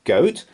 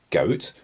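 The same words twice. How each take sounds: First: High, loud startled question; shocked disbelief. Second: Said in the usual way. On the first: A narrator's reading. Pirate chief aghast at goat stew, loud shocked question. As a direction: repeat it louder, aghast.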